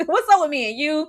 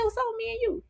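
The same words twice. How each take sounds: First: Said in the usual way. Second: High, soft teasing quote; quoting Lestat. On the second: Retold or imitated. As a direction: lightly voice Lestat, high and hushed. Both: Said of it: "he said".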